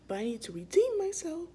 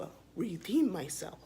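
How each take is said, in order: First: "redeem" pitched much higher and louder; stress on redeem. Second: Said in the usual way. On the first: Real, not acted. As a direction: punch "redeem" hard. Says it twice, second emphatic.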